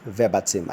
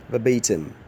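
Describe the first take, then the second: First: Verbatim said VER-buh-tim; wrong pronunciation. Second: Verbatim said vuh-BAY-tim; correct pronunciation. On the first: Teacher quoting the error. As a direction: show the wrong verbatim stressed first. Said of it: "Verbatim is wrong". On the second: Teacher modelling the right form. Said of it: "The correct pronunciation of that word is". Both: Shown as a demonstration.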